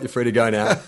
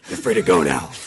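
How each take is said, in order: First: It is said in his normal speaking voice. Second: It is said in a gruff Batman voice.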